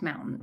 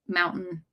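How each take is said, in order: First: The middle T is dropped. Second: The middle T is clearly pronounced.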